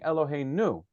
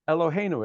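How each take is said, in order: First: The stress is on the last syllable. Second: The stress is on the second-to-last syllable. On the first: The speaker calls it wrong. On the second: The speaker calls it right.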